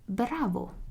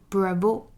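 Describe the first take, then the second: First: The stress falls on the first syllable, Italian-style. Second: The stress falls on the final O, English-style.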